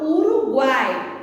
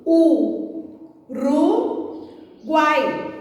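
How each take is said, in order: First: Said in the usual way. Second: U, Ru, Guai as three separate beats; syllable by syllable. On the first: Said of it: "Vamos separar?". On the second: Shown as a demonstration. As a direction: pause after each: U... Ru... Guai. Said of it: "Vamos separar? Fica assim".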